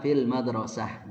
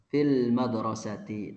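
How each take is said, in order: First: The last word ends without its final vowel ending. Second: The last word ends with a full -ti ending.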